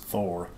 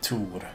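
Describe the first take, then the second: First: It begins with a th sound. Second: It begins with a plain t sound. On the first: "The band is actually pronounced Thor" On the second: "we in Sweden would remove the H and say Tor"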